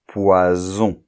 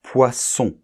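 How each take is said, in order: First: Poison with a buzzing z sound; voiced s demo. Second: Poisson with a hard hissing s; voiceless s demo. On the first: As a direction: buzz the s in Poison like z. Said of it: "ça va se prononcer un S sonore". (Poison avec un s sonore comme un z) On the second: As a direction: hiss the ss in poisson. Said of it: "le S sourd de poisson". (poisson avec un s sourd bien sifflé) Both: Shown as a demonstration.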